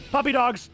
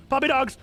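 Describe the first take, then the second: No difference in how they are said.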